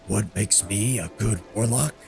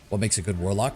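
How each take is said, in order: First: It is said in a gravelly Batman voice. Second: It is said in his normal voice.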